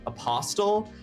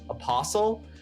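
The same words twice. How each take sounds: First: The t sound in the middle is pronounced. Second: The t sound in the middle is silent. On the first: The speaker calls it wrong. "I did say apostle because I thought it was pronounced apostle" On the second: The speaker calls it right. "the T was silent and that it's pronounced apostle"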